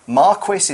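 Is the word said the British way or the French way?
British. The word is said the British English way. "how we'd say it in the UK"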